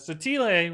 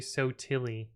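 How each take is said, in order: First: The surname is said with Italian pronunciation. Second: The surname is said anglicized, like 'so silly'. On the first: This is how the name is said in Italy. The speaker calls it right. "would be the Italian pronunciation" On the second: This is how the family says the name. The speaker calls it wrong. "we say Sotili, like so silly"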